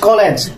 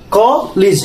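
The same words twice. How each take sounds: First: The first vowel does not sound like o. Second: The first vowel sounds like o. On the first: The speaker calls it wrong. "not college" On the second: The speaker calls it right. "Ko, it's a like o"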